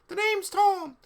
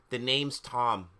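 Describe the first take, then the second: First: It is said in a put-on Tom Riddle voice. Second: It is said in the reader's normal voice.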